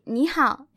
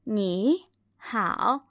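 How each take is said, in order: First: The first syllable rises like a second tone. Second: The first syllable dips low like a full third tone. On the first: The speaker calls it right. "if I say 你好, it flows really easily" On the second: The speaker calls it wrong. "when I say my first third tone in a full tone, it's not as easy"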